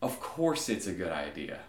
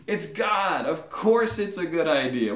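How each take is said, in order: First: Low, unimpressed deity; dry, lowered reply to an obvious remark; God. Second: Loud, high, exasperated insistence; incredulous exclamation. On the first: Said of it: "something I could hear God saying now". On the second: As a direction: insist on the blindingly obvious. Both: Acted.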